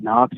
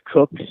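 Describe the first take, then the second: First: The name sounds like 'Knox'. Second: The name sounds like 'Cooks'. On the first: The speaker calls it wrong. "I pronounced it wrong. I pronounced it Knox" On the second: The speaker calls it right. "it's pronounced Cooks"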